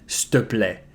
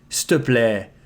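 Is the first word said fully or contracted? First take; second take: contracted; contracted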